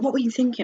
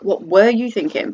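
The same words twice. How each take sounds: First: It sounds curious and eager to know. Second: It sounds critical and disapproving.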